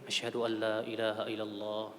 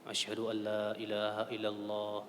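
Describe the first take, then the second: No difference in how they are said.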